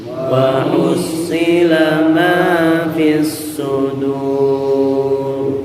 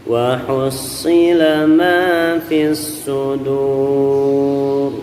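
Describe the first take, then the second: The two takes are said the same way.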